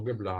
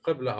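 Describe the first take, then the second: First: Qibla with a hard g, "gibla"; dialect pronunciation. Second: Qibla with a deep back-of-throat q; standard pronunciation. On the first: Teacher allowing the student's variant, Qibla with a hard g. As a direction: say Qibla starting like "give". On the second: Teacher giving the student both variants, Qibla with a q. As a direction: say Qibla with a q, not a g. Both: Shown as a demonstration. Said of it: "as you say it".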